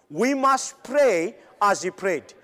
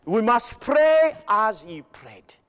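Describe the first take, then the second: First: Said in the usual way. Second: Slow, each word weighted, PRAY and PRAYED pressed; slow emphatic repeat. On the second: Shown as a demonstration. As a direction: drive "pray as he prayed" home slowly. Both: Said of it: "I like this".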